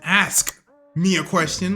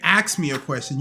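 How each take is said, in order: First: The verb is pronounced like 'ask'. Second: The verb is pronounced like 'ax'. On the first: The speaker calls it right. "say it right" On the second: The speaker calls it wrong. "people say ax when they mean to say ask"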